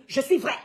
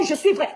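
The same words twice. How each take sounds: First: Said in the usual way. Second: Firm emphatic "je suis vrai"; insisting on je suis vrai. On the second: Real, not acted. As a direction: hammer "vrai" home as a vow. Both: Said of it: "Je dis bien".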